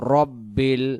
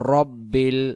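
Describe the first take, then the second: First: The first vowel is a short 'a'. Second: The first vowel is a short 'a'.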